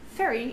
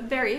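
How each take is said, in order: First: The word begins with an F sound. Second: The word begins with a V sound.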